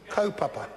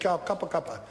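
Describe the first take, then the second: First: It starts 'ko' as in toe, then 'papa'. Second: It is said with hard 'kappa' syllables. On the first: The speaker calls it right. "It is actually ko papa. Ko as in toe, pa as in pa" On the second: The speaker calls it wrong. "he said ka kappa kappa"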